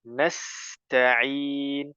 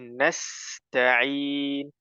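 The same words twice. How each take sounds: The two takes are said the same way.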